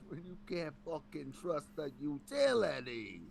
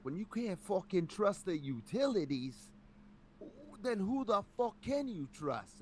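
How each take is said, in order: First: Put-on slow New York accent, a bit higher. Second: High, slow New York tough guy; thick New York accent, dragged out. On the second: Retold or imitated. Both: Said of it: "a thick, like, New York accent".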